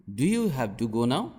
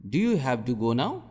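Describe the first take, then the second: No difference in how they are said.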